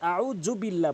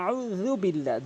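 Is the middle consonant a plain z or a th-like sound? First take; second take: plain z; th-like. First: The middle consonant is a plain z sound. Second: The middle consonant is made with tongue at teeth. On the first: The speaker calls it wrong. "অধিকাংশ লোক জাল বলে, যে ক্ষেত্রে আউযু বিল্লাহ বলে" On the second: The speaker calls it right. "বলতে হবে আউযু বিল্লাহ, জিব্বার আগা দাঁতের আগা মিলিয়ে উচ্চারণ করবেন"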